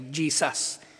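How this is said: It is said with a hard, forceful accent. "matigas yung accent talaga"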